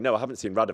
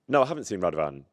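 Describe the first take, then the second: First: The name Radovan is said with emphasis. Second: The name Radovan is said without emphasis. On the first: The name is new information in the answer. "if someone went, "Have you seen anyone?"" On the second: The name was already mentioned in the question. "because they have just asked you a question that involved the name"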